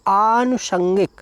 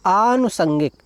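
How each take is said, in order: First: आनुषंगिक drawn out slowly; slow reading. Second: Said in the usual way. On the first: Shown as a demonstration. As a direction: read आनुषंगिक slowly for the students. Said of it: "और शब्द क्या है". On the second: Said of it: "क्या है".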